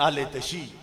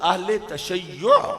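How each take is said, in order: First: The last word is clipped to two syllables. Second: The last word has three syllables with a doubled y. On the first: The speaker calls it wrong. "जो आम लोग गलत लफ्ज पढ़ते हैं" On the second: The speaker calls it right. "यह है लफ्ज"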